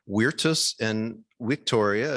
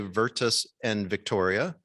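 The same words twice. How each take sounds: First: The words are pronounced the Latin way. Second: The words are pronounced the English way. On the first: "more proper to say Virtus and Victoria if you're pronouncing in Latin" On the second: "we could say"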